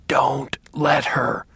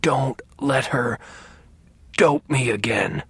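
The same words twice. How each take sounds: First: Slow, hoarse whispered plea; hoarse but forceful. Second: Slow, hoarse, strained plea; hoarse but forceful. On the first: Sick father begs his son for protection, hoarse and forceful. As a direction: rasp each word out with effort. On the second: Sick father begs his son to stop the nurse, hoarse insistence. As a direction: rasp it out word by word, insisting. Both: A narrator's reading. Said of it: "he said in a hoarse voice with surprising strength".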